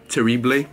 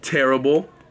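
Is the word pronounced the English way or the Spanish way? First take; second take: Spanish; English. First: It is pronounced with Spanish sounds. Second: It is pronounced with English sounds.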